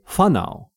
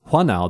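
First: The word begins with an f sound. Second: The word begins with a w-like sound. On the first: This is how many other speakers say it. "they say whanau" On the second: This is the northern way of saying it. "they don't say whanau"

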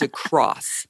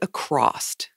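First: The word ends cleanly with an s sound. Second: The word ends with an extra t sound. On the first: The speaker calls it right. "the correct way to say the word is across" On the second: The speaker calls it wrong. "I said acrossed"

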